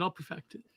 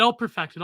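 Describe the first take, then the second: First: Soft growled death metal voice. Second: Said in the usual way. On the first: Shown as a demonstration. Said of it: "death metal voice".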